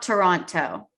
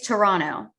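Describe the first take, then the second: First: The second t is clearly pronounced. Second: The second t is silent. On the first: The speaker calls it wrong. "It's not Toronto" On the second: The speaker calls it right. "The second T is silent. It's like Atlanta"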